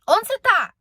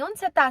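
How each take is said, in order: First: The tone is harsh and demanding. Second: The tone is sweet and affectionate. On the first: The caller is treating the other person coldly. The speaker calls it wrong. "com os de dentro de casa, eu ligava pro meu esposo e falava assim" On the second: The caller is treating the other person kindly. The speaker calls it right. "Eu não falava assim"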